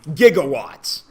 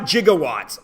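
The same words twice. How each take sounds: First: The word is pronounced the ordinary, everyday way. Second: The word is pronounced the way the film says it. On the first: The speaker calls it right. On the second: The speaker calls it wrong.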